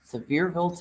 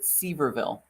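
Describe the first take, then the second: First: The name is said the local way. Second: The name is said the northern way.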